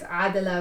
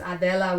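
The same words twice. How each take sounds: First: The name is pronounced the Arabic way. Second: The name is pronounced the Spanish way. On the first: "which is the Arabic version" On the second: "which is the Spanish version"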